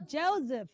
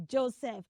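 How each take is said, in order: First: Joseph as "JOE-ziff"; correct pronunciation. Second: Joseph as "JOE-seff"; unvoiced S and full E in Joseph; wrong pronunciation. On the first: Teacher gives the answer, Joseph as "JOE-ziff". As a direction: buzz the middle of Joseph as Z. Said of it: "The letter S in that name is Z". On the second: Teacher shows what to avoid, Joseph as "JOE-seff". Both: Shown as a demonstration.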